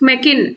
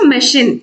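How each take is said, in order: First: The middle consonant is a k sound. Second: The middle consonant is an sh sound. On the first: The speaker calls it wrong. "దీన్ని మనం మెకిన్ అనలేము" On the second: The speaker calls it right. "షిన్ అనాలి"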